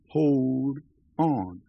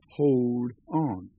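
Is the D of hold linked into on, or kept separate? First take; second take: separate; separate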